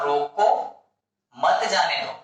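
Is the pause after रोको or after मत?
after रोको. The pause comes after रोको.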